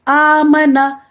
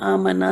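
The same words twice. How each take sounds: First: It is said actively with the mouth wide open. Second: It is mumbled sleepily with the mouth barely open. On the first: The speaker calls it right. "Active होके पढ़ना है" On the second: The speaker calls it wrong. "ऐसे नहीं सोए सोए पढ़ लें"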